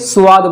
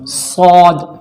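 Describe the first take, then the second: First: The letter is pronounced light, with a thin vowel. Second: The letter is pronounced heavy, with a full vowel. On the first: "कुछ लोग ऐसे होंगे जो इसे स्वाद बोलते हैं" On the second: "मोटा करके पढ़ा जाएगा"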